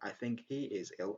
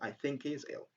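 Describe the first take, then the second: First: The h in 'he' is clearly pronounced. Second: The h in 'he' is dropped. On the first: The speaker calls it wrong. "Instead of saying" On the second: The speaker calls it right. "Very easy and very natural"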